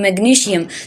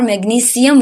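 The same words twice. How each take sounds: First: It has an 'sh' sound before 'ium'. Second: It has an 's' sound before 'ium'. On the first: The speaker calls it wrong. "तो ये pronunciation ठीक नहीं है" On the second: The speaker calls it right. "श की आवाज़ नहीं आती, बल्कि स की आवाज़ आती है"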